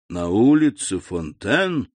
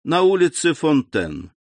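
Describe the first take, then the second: First: Slow, strained and choked; forcing the words out through a tight throat. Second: Said in the usual way. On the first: A narrator's reading. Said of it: "продолжал Вильфор сдавленным голосом". (сдавленным голосом)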